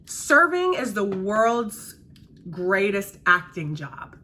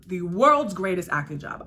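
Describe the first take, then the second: First: Slow, weighty "greatest acting job"; slow emphasis. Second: "world's" stressed, at normal pace. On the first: Server telling viewers about serving, slow and weighty. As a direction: lean on "greatest" and drag it out. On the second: Server repeating her point, stressing "world's". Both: Real, not acted. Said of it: "repeated for emphasis".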